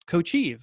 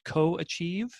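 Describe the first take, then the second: First: It begins with 'coach' run into 'ieve'. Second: It begins with 'co' followed by 'achieve'. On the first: Coach and achieve are combined into one word. The speaker calls it right. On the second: Achieving together with someone else. The speaker calls it wrong.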